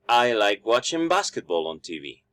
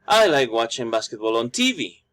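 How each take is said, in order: First: The stress is on basketball. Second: The stress is on TV.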